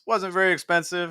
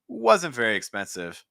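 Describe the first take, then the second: First: Every word stays in the same pitch range. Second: The pitch varies, with one word clearly stressed. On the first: The speaker calls it wrong. "because that's da, da, da, da, da" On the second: The speaker calls it right. "More wasn't very expensive"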